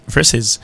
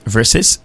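First: "versus" said "VER-siz", ending on a voiced z; versus with Z sound. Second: "Versus" said "VER-sis", ending on a crisp s; versus with S sound. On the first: Teacher demonstrating the Z option, "versus" ending in voiced z. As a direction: let the end of "versus" buzz. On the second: Teacher demonstrating the S option, "Versus" ending in voiceless s. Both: Shown as a demonstration. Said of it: "sont Z ou bien sont S".

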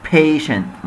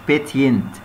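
First: Patient said "PAY-shent". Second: Patient said "PET-yint"; wrong t sound. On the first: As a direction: model patient with a sh in the middle. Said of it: "التي آي شا". (patient بصوت شين في النص) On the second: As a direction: pronounce the t literally in patient. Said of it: "مش patient". (patient بصوت تاء في النص) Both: Shown as a demonstration.

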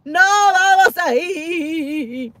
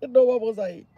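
First: Slow, stretched no vamos ahí; "vamos" stretched long and slow; drawn-out teasing refusal. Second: Said in the usual way. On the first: Real, not acted. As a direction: drag out "No vamos ahí" playfully.

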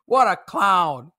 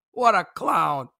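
Both takes have the same delivery.

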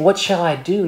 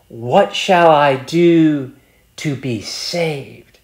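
First: Said in the usual way. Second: Slow, drawn-out question with a pause before "to be saved?"; weighty added phrase. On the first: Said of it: "Before he was saying". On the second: Retold or imitated. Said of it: "Now he's saying".

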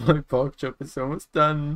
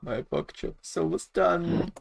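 First: High squeaky gleeful voice; giggly high cartoon voice; silly high voice. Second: High slow squeaky voice; silly high voice. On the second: Acted.

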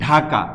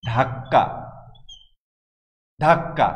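First: ঢাকা with an aspirated dh, said the Bengali way; teacher gives the true local sound ঢাকা, breathy dh at the start; native pronunciation. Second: ঢাকা said with a plain unaspirated d and a doubled k; teacher mimics the British ঢাকা, plain d, held k; British spelling sound. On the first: Teacher showing students the native ঢাকা with aspirated dh. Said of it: "আমাদের রাজধানী শহর". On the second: Teacher contrasting the British Dacca with the native name. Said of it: "নাম দিয়ে দিলেন". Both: Shown as a demonstration.

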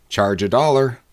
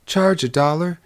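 First: Said in the usual way. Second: Higher, rising echo of disbelief; surprised bride, voice rising at the end; astonished question. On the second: Acted. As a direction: query the price in astonishment, pitched up. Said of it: "cried the bride".

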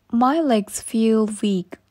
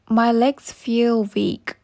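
No difference in how they are said.

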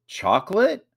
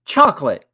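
First: "chocolate" rising high as first option; high rising tune on "chocolate"; questioning choice. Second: "Chocolate" loud, falling at the end; raised, decisive shout of "Chocolate"; called out. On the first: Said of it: "said Samuel". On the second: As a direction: call out "Chocolate" as the answer. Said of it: "called Ethan". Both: A narrator's reading.

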